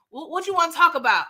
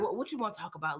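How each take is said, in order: First: Quicker, higher impatient question; retold impatient repeat. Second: Low, soft reluctant question; retold resignation. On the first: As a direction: repeat it briskly, pitched up. Repeats the question more insistently. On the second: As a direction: give in quietly, imitating her. Retold giving in to pressing.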